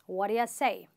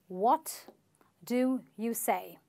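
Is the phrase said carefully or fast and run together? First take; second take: fast; careful. First: The words are said fast and run together. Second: Each word is said clearly and separately.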